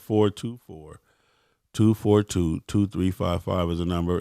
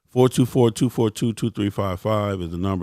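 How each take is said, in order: First: The number is said at a slower pace. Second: The number is said at a quicker pace.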